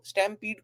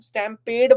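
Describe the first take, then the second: First: The second syllable sounds like 'peed'. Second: The second syllable sounds like 'ped'.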